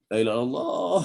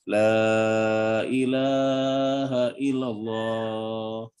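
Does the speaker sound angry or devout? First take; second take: angry; devout. First: It is said in an angry, exasperated tone. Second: It is said in a calm, devout, solemn tone. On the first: The person is fed up with someone. "Lagi marah ya" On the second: The person is praying or mourning a death. "Zikir atau ada orang mati? Lagi tahlil"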